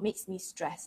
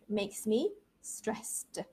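First: The last word is said without the ED sound. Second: The last word ends with an audible ED sound. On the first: The speaker calls it wrong. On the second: The speaker calls it right.

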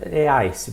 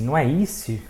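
First: The vowel is said like 'ai', as in 'eye'. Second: The vowel is said like 'ee', not 'ai'. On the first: The speaker calls it right. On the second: The speaker calls it wrong.

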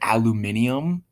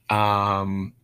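First: It is said the British way. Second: It is said the American way.

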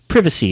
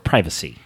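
First: It is said in a British accent. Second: It is said in a non-British accent.

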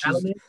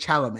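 First: The name is pronounced the French way. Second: The name is pronounced the English way. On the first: The speaker calls it right. "It's French" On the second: The speaker calls it wrong. "I don't think you're saying it right. I don't think it's Chalamet"

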